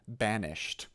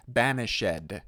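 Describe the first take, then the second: First: Said in the usual way. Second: "banished" in three syllables, BAN-ish-ED, loud; voiced -ed syllable. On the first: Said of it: "instead of". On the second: Shown as a demonstration. Coach showing Romeo and Juliet wording, "banished" as ban-ish-ed. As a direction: sound out the -ed in "banished" as its own syllable, "shed". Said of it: "you have to say".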